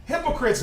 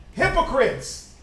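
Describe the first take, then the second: First: Said in the usual way. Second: Drawn out slow Hypocrites; slow stress. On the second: Shown as a demonstration. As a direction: spell out Hypocrites slowly.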